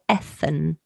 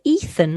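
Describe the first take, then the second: First: "Ethan" said EH-thun; Ethan with short E. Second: "Ethan" said EE-thun; Ethan with long E. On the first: Host offering other pronunciation, "Ethan" as EH-thun. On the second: Host checking guest's name, "Ethan" as EE-thun. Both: Shown as a demonstration. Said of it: "make sure I'm pronouncing your name correctly".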